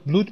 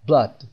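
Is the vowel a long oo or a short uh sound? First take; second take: long oo; short uh. First: The vowel is a long oo sound. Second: The vowel is a short uh sound. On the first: The speaker calls it wrong. "دو تا او داریم، ممکنه یه نفر اینو blood بخونه" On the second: The speaker calls it right. "صدای آی کوتاه"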